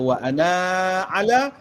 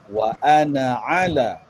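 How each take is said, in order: First: The vowel after the n is long. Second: The vowel after the n is short. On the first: The alif is wrongly pronounced when reading continuously. The speaker calls it wrong. "siapa yang baca wa ana ala, bermaksud orang itu mungkin tak ada ilmu" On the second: The alif is silent when reading continuously. The speaker calls it right. "Dibaca dengan"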